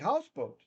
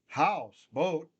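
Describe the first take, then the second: First: Only the first part is stressed, as one word. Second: Both parts are stressed, like two separate words. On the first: The speaker calls it right. "We say houseboat, one accent" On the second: The speaker calls it wrong. "We don't say house, boat"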